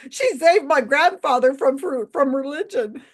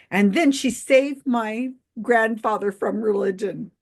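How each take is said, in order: First: Higher, louder, tickled repeat of a quote; high-pitched amused mimicry; amused incredulous quoting. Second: Said in the usual way. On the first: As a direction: quote it as if it's hilarious, voice lifting toward a laugh. Repeats quote she found hilarious.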